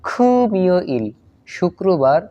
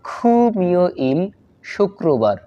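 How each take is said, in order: No difference in how they are said.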